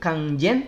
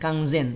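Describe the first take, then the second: First: The name begins with a j sound. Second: The name begins with a z sound. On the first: The speaker calls it wrong. "Yang satu pakai huruf jim" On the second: The speaker calls it right. "yang satu pakai huruf zai"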